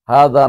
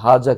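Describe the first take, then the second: First: The middle consonant is a soft th sound. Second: The middle consonant is a z sound. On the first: The speaker calls it right. "হা দা না বলা দরকার ছিল" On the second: The speaker calls it wrong. "হাজা কি শুদ্ধ নাকি?"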